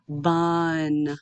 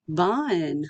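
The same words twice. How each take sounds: First: BUN drawn out slowly on a level pitch; stretched out. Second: BUN said as one natural word; said faster. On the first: Teacher blending sounds for students, BUN slowly stretched out. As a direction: stretch BUN, holding vowel and n. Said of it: "say it slowly and stretched out". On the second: Teacher showing students the finished word, BUN said faster. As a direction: bring BUN together, less drawn out. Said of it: "then you can say it faster". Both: Shown as a demonstration.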